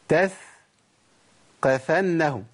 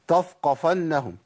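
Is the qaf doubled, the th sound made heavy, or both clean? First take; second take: doubled; heavy. First: The qaf is doubled and held. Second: The th sound turns thick, like a heavy t. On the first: "انا كده ضعفت القاف" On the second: "طف طف، ايه طف دي؟ مش موجوده عندنا"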